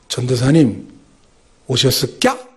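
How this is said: It is said in Ganghwa Island dialect. "이게 사투리인데요"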